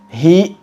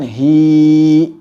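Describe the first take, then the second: First: The vowel ends in an abrupt glottal catch. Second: The vowel is drawn out far too long. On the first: "membacanya dengan menambahkan hamzah"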